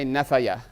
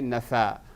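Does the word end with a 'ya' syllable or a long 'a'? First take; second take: ya syllable; long a. First: The word ends with a 'ya' syllable. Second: The word ends with a long 'a' sound. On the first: The speaker calls it wrong. "you wouldn't say nefaya" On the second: The speaker calls it right. "they would say nafa"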